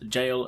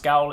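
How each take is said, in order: First: The word begins with a J sound. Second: The word begins with a hard G sound. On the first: The speaker calls it right. "it is pronounced Jail" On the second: The speaker calls it wrong. "it's not pronounced Gaol"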